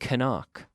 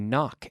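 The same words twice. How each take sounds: First: The initial K sound is pronounced. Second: The initial K sound is silent. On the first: The speaker calls it wrong. "We don't say knock" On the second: The speaker calls it right. "we say knock"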